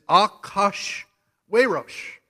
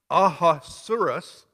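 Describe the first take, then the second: First: The name is said in its Hebrew form. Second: The name is said in its English form. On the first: "the Hebrew pronunciation is Akash Werosh" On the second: "pronounced Ahasuerus, or however you want to pronounce it"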